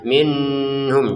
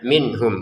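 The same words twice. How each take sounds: First: It is said with a nasal hum. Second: It is said clearly without a nasal hum. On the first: The speaker calls it wrong. "Jadi jangan ada dengung sama sekali, minhum jangan ya" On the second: The speaker calls it right. "kata minhumnya dibaca dengan jelas ya"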